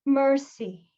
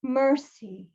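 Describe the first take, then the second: No difference in how they are said.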